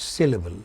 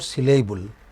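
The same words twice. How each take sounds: First: The stress is on the first syllable. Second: The stress is not on the first syllable. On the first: The speaker calls it right. "It's pronounced with stress on the initial syllable" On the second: The speaker calls it wrong. "It is not syllable"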